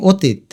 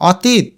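First: অতীত with round o, o-teet; closed first vowel. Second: অতীত with open aw, aw-teet; open first vowel. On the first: Teacher offering the usual form, অতীত said o-teet. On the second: Teacher offering a choice, অতীত said aw-teet. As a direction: start অতীত on a wide aw. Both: Shown as a demonstration. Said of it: "আমরা অতীত বলি".

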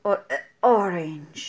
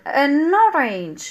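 First: Low, very slow "a orange" with a choked catch between the vowels; choking on a orange. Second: Very slow "An orange" with the n gliding into orange; right form, drawn out. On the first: Teacher acting out choking on the wrong form. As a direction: make "a orange" sound like it gets stuck in the throat. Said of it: "بحال شي واحد كيجيفك". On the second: Teacher slowly modelling the correct an orange. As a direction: stretch "An orange" so the n links smoothly. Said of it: "An orange or a orange". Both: Shown as a demonstration.

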